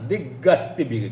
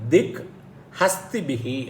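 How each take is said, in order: First: The words are run together as one word. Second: The two words are said separately. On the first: "சந்தி சேர்த்து சொன்னால்" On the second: "பிரித்து சொல்லணும்னா"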